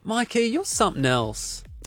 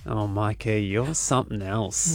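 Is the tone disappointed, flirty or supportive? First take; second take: supportive; flirty. First: It sounds warm and supportive. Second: It sounds flirty, almost growled.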